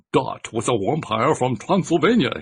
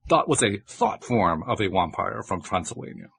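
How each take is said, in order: First: Put-on slow, heavy Transylvanian vampire accent, higher; thick Transylvanian accent. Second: Put-on Transylvanian accent. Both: A narrator's reading. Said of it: "in words thicker than the creature's own".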